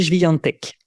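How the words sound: The name is said with Polish pronunciation. "le prononcer euh, en polonais"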